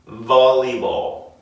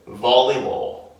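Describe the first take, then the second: First: It is said with English sounds, lip bitten. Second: It is said with English sounds, lip bitten.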